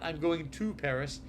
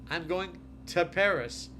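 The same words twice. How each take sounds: First: The word 'to' is said fully with rounded lips. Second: The word 'to' is reduced to a quick 'ta'. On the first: The speaker calls it wrong. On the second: The speaker calls it right. "you can just say to"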